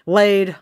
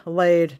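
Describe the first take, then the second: First: LAID hit loud and higher; "Laid" punched out loud as the right word; emphatic correction. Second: Said in the usual way. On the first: Real, not acted. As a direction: correct yourself firmly on "Laid". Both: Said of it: "shouldn't have said hatched".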